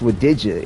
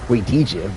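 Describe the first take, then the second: First: The first syllable sounds like 'wuh'. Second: The first syllable sounds like 'way'. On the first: This is how the name is actually said. The speaker calls it right. "it's with Dija" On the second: This is how the spelling suggests it is read. The speaker calls it wrong. "phonetically it would be"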